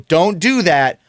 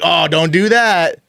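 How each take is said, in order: First: It is said as a plain, straight warning. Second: It is said in a joking, knowing voice.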